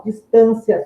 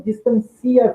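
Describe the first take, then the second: First: "Distância" with the stress on TÂN and the "ia" as one glide. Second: "distancia" with the stress on CI, the "i" and "a" split. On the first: Teacher contrasting noun and verb: "Distância" stressed on TÂN. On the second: Teacher contrasting noun and verb: "distancia" stressed on CI. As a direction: verb reading of "distancia", dis-tan-CI-a. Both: Shown as a demonstration.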